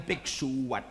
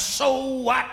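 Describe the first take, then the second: First: Low, quieter comeback; cool comeback. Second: Defiant retort. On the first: Stanley topping Janmaat's retort, low and cool. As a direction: drop it low to top the retort. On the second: Janmaat brushing off Stanley, defiant retort. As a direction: throw it back as a challenge. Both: Acted.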